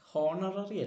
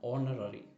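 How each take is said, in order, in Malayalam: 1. ഈ വാക്ക് കേൾക്കാവുന്ന h ശബ്ദത്തോടെയാണ് തുടങ്ങുന്നത്. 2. ഈ വാക്ക് സ്വരാക്ഷരത്തോടെയാണ് തുടങ്ങുന്നത്, h ഇല്ല. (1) "ഹോണററി അല്ല" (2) "അവിടെയെല്ലാം എച്ച് സൈലൻ്റ് ആണ്"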